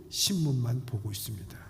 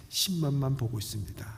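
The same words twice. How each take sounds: The two takes are said the same way.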